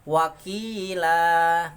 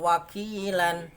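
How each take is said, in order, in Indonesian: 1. Kata ini berakhir dengan vokal panjang, tanpa n. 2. Kata ini berakhir dengan vokal pendek ditambah n. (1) "dibaca wakof, berhenti wakilah" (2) "dibaca wasol wakilan"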